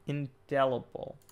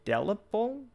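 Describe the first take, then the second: First: "Indelible" drawn out slowly, falling at the end; sounded-out INDELIBLE. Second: "indelible?" rising high, unsure of the word; questioning INDELIBLE. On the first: Reader trying out an unfamiliar word, slow and deliberate. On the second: Reader meeting an unfamiliar word, questioning. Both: Real, not acted.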